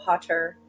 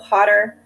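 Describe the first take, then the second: First: The middle consonant is a clear, crisp T. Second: The middle consonant sounds like a soft D. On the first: "in British English, you're more likely to pronounce both T's" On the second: "In American English, ... that t sound sounds more like a D"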